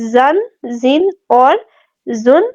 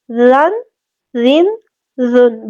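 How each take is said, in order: First: زن, زین with a buzzing, whistling z; tongue behind the teeth for a sharp z in زن; whistled z. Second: زن, زین with a soft th as in "this"; tongue tip out for a gentle, whistle-free زن; very soft dhal. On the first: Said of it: "دونوں میں فرق رکھیں گے". (زن، زین سیٹی کی آواز کے ساتھ) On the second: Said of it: "بہت نرمی سے ادا کریں گے". (زن، زین بہت نرمی سے) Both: Shown as a demonstration.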